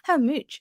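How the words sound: The vowel in 'much' sounds like 'oo'. "มีเขาจะออกเสียงตัว, u, เป็นสระอุ, ซึ่งมีในบางเมืองในอังกฤษนะคะ"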